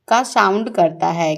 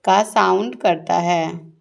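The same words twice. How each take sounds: First: Said in the usual way. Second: Slow, deliberate repeat. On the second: Shown as a demonstration. Teacher repeats the answer slowly for children. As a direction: say का sound करता है slowly, leaning on का. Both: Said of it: "किस चीज़ का sound करता है?".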